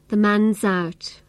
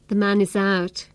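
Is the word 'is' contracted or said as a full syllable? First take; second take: contracted; full. First: The 'is' is reduced and attached to 'man'. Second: The 'is' is said as its own syllable. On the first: "Instead of saying the syllable is, I attach this sound to the end of man" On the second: "I didn't say the man is out"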